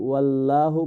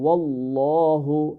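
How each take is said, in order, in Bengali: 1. 'llah' হালকা, মুখ সরু থাকে। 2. 'llah' ভারী, মুখ পূর্ণ থাকে। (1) "এটাকে ওয়াল্লাহু বলা যাবে না" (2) "আল্লাহ ওয়ার্ডটা অলওয়েজ ফুল মাউথ হবে"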